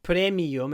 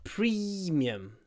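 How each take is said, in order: First: The first vowel is not a clear ee. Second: The first vowel is a clear ee sound. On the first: The speaker calls it wrong. "It's not premium" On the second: The speaker calls it right. "make sure you pronounce it with an E"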